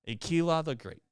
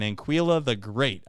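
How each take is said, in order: First: The first syllable is said without an n sound. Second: The first syllable is said with an n sound. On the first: The speaker calls it right. "I think I got it" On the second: The speaker calls it wrong. "Why do I say Ann? I've just now noticed there's no N in there"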